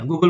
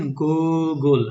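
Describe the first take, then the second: First: Said in the usual way. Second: Google drawn out as two separate parts, "Goo... gle"; split into syllables. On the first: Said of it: "একবারে বলে ফেলছি না". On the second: Shown as a demonstration. Teacher mimicking the student's two-part Google, syllables stretched apart. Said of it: "আমরা তো ওইভাবে বলছি না".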